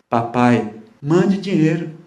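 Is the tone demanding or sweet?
sweet. It sounds sweet and pleading.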